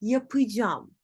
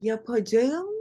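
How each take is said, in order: First: Yapacağım as ya-pı-jam; spoken contraction. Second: Yapacağım in full, ya-pa-ja-ım; written form. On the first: Teacher corrects the word, yapacağım as yapıcam. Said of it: "Yapacağım değil". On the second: Teacher shows what to avoid, full yapacağım. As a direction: sound out all of yapacağım. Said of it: "değil". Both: Shown as a demonstration.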